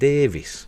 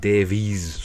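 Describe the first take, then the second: First: The name ends with a short 'vis' sound. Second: The name ends with a longer 'veez' sound. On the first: "I said Davis" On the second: "or is it Davies? Some people say Davies"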